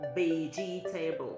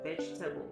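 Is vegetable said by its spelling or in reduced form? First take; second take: spelling; reduced. First: The word is said syllable by syllable, as spelled. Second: The word is said in its usual reduced form. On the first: The speaker calls it wrong. "people always say vegetable" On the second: The speaker calls it right. "I'm pronouncing it right"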